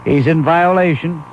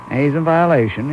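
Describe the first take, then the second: First: Violation drawn out slowly; stern slow verdict; slow emphatic ruling. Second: Said in the usual way. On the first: Shown as a demonstration. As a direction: lean on violation, slow and final.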